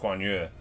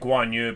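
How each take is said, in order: First: The name is said with Mandarin-like vowels. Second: The name is said with anglicized American vowels. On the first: The speaker calls it right. "It's Guan Yu" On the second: The speaker calls it wrong. "I always say it Guan Yu, but that's not right"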